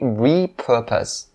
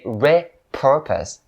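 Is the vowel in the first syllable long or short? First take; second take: long; short. First: The first syllable has a long E sound. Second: The first syllable has a short E sound. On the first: The speaker calls it right. "It has to be repurpose" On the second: The speaker calls it wrong. "you cannot say repurpose"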